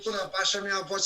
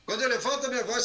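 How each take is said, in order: First: Quick step down from the raised pitch; lowered voice. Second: High-pitched, energetic lift; raised voice. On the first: Coach showing what lowering the voice does, lowered voice. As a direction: bring the voice down briskly. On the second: Coach showing what raising the voice does, raised voice. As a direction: push the pitch up to grab attention. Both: Shown as a demonstration.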